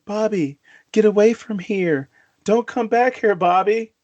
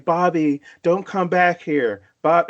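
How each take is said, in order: First: Mock ghost mother warning. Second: Said in the usual way. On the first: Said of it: "soon as I hear that voice saying". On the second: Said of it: "first hear that voice".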